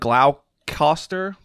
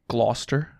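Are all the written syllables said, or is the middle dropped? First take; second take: all said; middle dropped. First: Every written syllable is pronounced in full. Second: The middle syllables are dropped from the word. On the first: The speaker calls it wrong. "It looks like Gloucester" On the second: The speaker calls it right. "it's actually Gloucester instead of like, you like just drop all the middle part"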